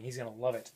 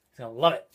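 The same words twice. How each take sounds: First: Said in the usual way. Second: Louder, eager emphasis; excited. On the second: Real, not acted. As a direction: say it with real excitement. Repeats line for emphasis.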